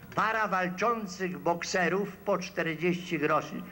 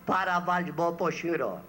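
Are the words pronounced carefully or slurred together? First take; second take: carefully; slurred. First: Every word is pronounced clearly and in full. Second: The words are slurred and heavily clipped together. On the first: "w tłumaczeniu na język literacki" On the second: "polega na niechlujstwie wymowy"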